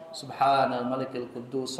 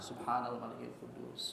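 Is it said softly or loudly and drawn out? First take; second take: loudly; softly. First: It is said loudly with drawn-out words. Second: It is said softly and briefly.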